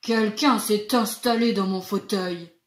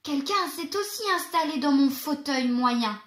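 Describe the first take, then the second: First: It is said in a big deep voice. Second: It is said in a medium voice.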